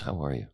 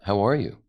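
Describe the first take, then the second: First: It sounds sympathetic, consoling a grieving person. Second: It sounds like a casual, curious question.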